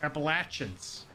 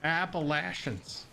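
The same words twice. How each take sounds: First: Appalachians with "LATCH" in the middle; drawn-out "appa-LATCH-ins" for Appalachians; local pronunciation. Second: Appalachians with "LAY-sh" in the middle; drawn-out Appalachians, "sh" not "ch"; outsider pronunciation. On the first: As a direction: slowly say Appalachians with a hard "ch". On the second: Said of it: "That's not how people from there say it". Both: Shown as a demonstration.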